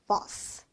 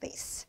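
First: British accent, vowel like the a in father. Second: American accent, vowel like the a in face. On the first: "영국에서는 이렇게 발음을 해요" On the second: "vase는 미국인 발음이고요"

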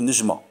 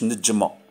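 First: The j is said the Moroccan way. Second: The j is not said the Moroccan way. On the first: This is how people in Oran say it. "يقولوا نجمة. الجيم ينطقوه كيما المغاربة" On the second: This is not how people in Oran say it. "ما يقولوش"

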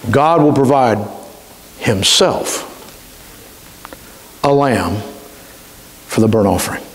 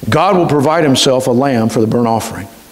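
First: The word himself is stressed. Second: The word himself is not stressed.

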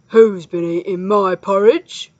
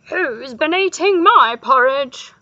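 First: It is said in a growling voice. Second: It is said in a howling voice.

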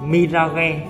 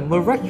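First: The word is said with Vietnamese pronunciation. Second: The word is said with English pronunciation. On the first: "theo tiếng Việt mình hay gọi tên của bài đó là Mirage" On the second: "đọc tiếng Anh nó là Mirage"

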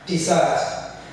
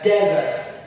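First: The stress is on the second syllable. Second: The stress is on the first syllable. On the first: It names a sweet dish after a meal. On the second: It names a dry, sandy region.

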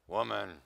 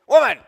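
First: It is said in a bored tone. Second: It is said in an irritated tone.

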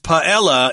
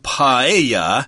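First: The double L sounds like an L. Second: The double L sounds like a Y. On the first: "my dictionary says paella is acceptable, I suppose people would pronounce it that way because there are L's there" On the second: "is how you would say it in Spanish"

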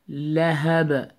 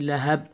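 First: The final b ends with a slight echo. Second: The final b stops flat without echo. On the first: The speaker calls it right. "You have to apply qalqala echo sound" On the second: The speaker calls it wrong. "Don't say lahab"

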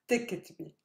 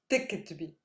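The two takes are said the same way.

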